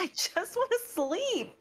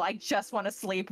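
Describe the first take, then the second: First: Higher, slow, drowsy whine; Sayu's sleepy voice. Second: Said in the usual way. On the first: Retold or imitated. Sayu begging to sleep, high and slow. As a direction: drag it out like a sleepy kid. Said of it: "And Sayu's like". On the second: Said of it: "And Sayu's is like".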